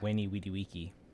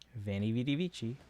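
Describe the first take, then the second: First: The V letters are said as W sounds. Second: The V letters are said as V sounds. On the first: The speaker calls it right. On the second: The speaker calls it wrong.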